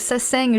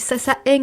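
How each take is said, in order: First: The word is pronounced in a Korean way. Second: The word is pronounced in a French way. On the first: "ça se dit en coréen" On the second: "quand je parle français"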